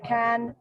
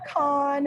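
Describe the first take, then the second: First: The vowel sounds like the one in 'can'. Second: The vowel sounds like the one in 'con'. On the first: The speaker calls it right. "the proper pronunciation is to say can" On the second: The speaker calls it wrong. "not not con"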